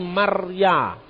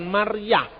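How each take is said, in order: First: The word ends in a plain vowel. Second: The word ends with an audible h sound. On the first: The speaker calls it right. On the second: The speaker calls it wrong. "Akhirannya bukan huruf H"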